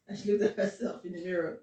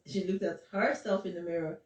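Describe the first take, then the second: First: Looked lifted with a rise; looked stressed. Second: Herself leaned on; stress on herself. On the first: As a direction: lean into the word looked. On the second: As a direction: push the word herself. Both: Shown as a demonstration. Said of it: "is that what you're talking about".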